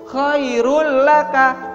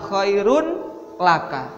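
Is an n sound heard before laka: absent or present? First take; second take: absent; present. First: The n merges into the following l sound. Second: A clear n is pronounced before the l. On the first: The speaker calls it right. "langsung khairul laka, n-nya hilang" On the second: The speaker calls it wrong. "bukan khairun laka"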